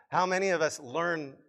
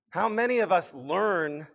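The two takes are said the same way.

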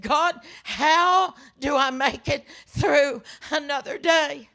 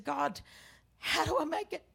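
First: Loud, drawn-out plea to God; anguished prayer. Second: Soft, higher, fragile plea; hushed prayer. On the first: Widow with coffee cup raised to God, anguished plea. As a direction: cry out in grief, pushing each word. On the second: Widow in grief asks God, hushed plea. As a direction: ask God quietly, almost to yourself. Same prayer repeated, softly. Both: Retold or imitated.

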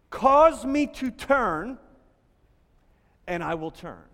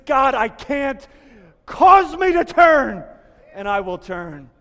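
First: Said in the usual way. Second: Rebel's desperate cry. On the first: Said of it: "can literally be translated". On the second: Acted. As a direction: cry out Cause me to turn from the gut. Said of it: "you know the cry of the rebel".

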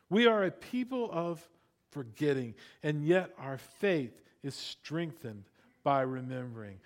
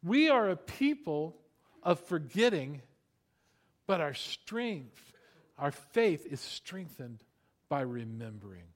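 First: WE lifted, then settling lower on remembering; emphatic restatement; repeated key line. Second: Slow, weighty, each phrase set apart; slow preached emphasis; emphatic key line. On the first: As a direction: say it once more to write down. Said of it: "Write this down". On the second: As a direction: drive the point home for the notes. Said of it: "write this down". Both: Shown as a demonstration.

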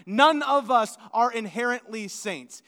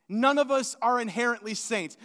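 First: None punched louder, the sentence hammered home; stress on NONE. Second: Said in the usual way. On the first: Shown as a demonstration. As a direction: hit the word None hard and loud. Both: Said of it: "hear me one more time".

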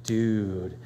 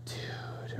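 First: Hushed dude. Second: Breathy whispered dude. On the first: Friend getting serious about a steakhouse, hushed. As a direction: lower and softer, hushed. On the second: Friend most impressed by a steakhouse, whispering. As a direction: barely whisper it, awed. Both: Retold or imitated. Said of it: "we've gone from".

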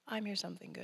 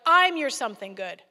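First: Soft, much quieter reassurance; gentle, quiet God. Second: Loud, firm declaration from God; God booms it out; booming God voice. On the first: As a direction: say it softly, not yelled. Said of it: "He didn't actually yell it at me". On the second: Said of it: "And God's like". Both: Retold or imitated.

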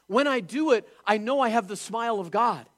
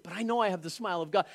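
First: Higher and louder, proclaiming; preacher voices a believer's confident joy, loud and high; emphatic declaration. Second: Fast, back at normal level; quick murmured repeat. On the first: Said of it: "preaching, emphatic inner voice". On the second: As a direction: rush it through as an inner reassurance. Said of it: "repeat, quicker and softer". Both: Acted.

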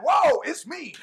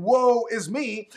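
First: Higher, delighted whoa; spring it up with joy; joyful exclaim. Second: Slow, drawn-out woeful sigh; mock lament. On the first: Preacher showing believers a joyful answer, higher excited exclaim. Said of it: "now I could be like". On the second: Preacher mocking the self-pitying believer, slow mock lament. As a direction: drag it out like self-pity. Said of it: "So instead of saying". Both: Shown as a demonstration.

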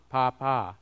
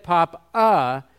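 First: "Papa" with a full ah in each syllable; "Papa" with two ahs. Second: Slow "papa" with the second vowel as uh; "papa" ending in uh. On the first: Showing the class the phonetic reading, "Papa" with ah twice. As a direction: sound both vowels of "Papa" as ah, lower. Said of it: "have to be pronounced as an ah". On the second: Showing the class the other reading, "papa" ending in uh. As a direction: make the last A of "papa" an uh. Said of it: "you pronounce that second A as this character". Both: Shown as a demonstration.

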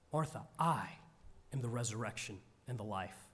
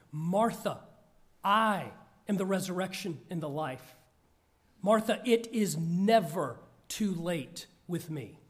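First: A hushed, quick read of the words; soft scripture line. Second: A firm, emphatic voicing of Jesus; pointed and powerful. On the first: Acted. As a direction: let it drop low and gentle. Quiet read of Jesus' words. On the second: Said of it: "saying pointedly and powerfully".

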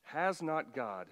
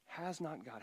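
First: "has not God" slow, leaning on "has"; slow sarcastic emphasis on "has"; stressed HAS. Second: "has not God" dropped much softer; quiet, pointed repetition of "has not God"; softer repeat. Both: Shown as a demonstration. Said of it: "It's a tad bit of sarcasm here".

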